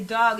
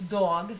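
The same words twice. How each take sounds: First: Said in the usual way. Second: Dog with a Boston vowel, dawg; drawn-out Boston dawg. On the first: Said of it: "when I say dog". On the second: Shown as a demonstration. Showing friends her Boston accent, Boston dawg. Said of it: "when I say dog, it's dog".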